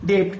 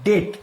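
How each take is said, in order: First: ডেপ্ট with a p before the t; sounded middle consonant. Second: ডেট with only t at the end; silent b. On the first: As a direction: say ডেপ্ট as spelt, both end consonants heard. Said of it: "উচ্চারণটা কিন্তু ডেপ্ট হবে না". (ডেপ্ট-এ ট-এর আগে প উচ্চারণ করে) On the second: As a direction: say ডেট straight from vowel to t. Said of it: "উচ্চারণটা হবে". (ডেট-এ ব বাদ দিয়ে শুধু ট) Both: Shown as a demonstration.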